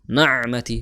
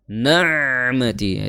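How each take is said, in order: First: The ain sound is short and held back. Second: The ain sound flows on and lasts long. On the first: The speaker calls it right. "bainiyah harusnya na'mati" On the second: The speaker calls it wrong. "Itu kelamaan. Suaranya mengalir, terlalu mengalir"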